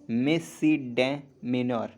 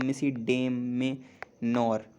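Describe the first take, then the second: First: "मिसिडेमेनर" drawn out very slowly, syllable by syllable; slow careful demo. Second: "मिसिडेमेनर" stretched even slower, every syllable clear; slow careful demo. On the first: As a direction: spell it out by ear. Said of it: "next". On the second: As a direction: say "मिसिडेमेनर" slowly, stressing मिसी. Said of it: "मिसी बोल रहा हूँ". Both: Shown as a demonstration.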